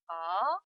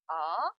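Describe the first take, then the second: First: The pitch rises quickly from mid to high. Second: The pitch rises quickly from mid to high.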